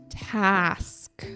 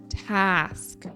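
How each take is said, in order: No difference in how they are said.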